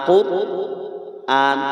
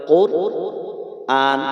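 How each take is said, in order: The two takes are said the same way.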